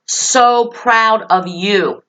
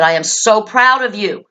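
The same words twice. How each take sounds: First: Every word drawn out, SO stressed; slow emphatic praise. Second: Said in the usual way. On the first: Retold or imitated. To the upset girl, praising her slowly and firmly. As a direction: linger on "So proud of you".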